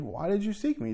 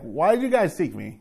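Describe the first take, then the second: First: It sounds sweet, loving and gentle. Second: It sounds snotty, like a sulky preteen.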